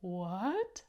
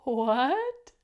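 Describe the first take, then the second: First: Surprised what. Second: Loud rising shocked what; loud surprised what. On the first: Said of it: "look how surprised the creatures". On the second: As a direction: shout the word What in amazement. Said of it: "Can you do that? Ready?". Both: Shown as a demonstration.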